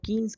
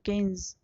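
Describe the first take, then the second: First: The first vowel sounds like 'ee'. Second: The first vowel sounds like 'ay'. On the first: The speaker calls it wrong. "तो वह गलत उच्चारण है" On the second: The speaker calls it right. "इनका पूरा नाम था"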